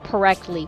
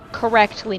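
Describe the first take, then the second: First: The word is said with slurred sounds. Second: The word is said clearly and carefully. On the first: The speaker calls it wrong. "not correctly" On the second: The speaker calls it right.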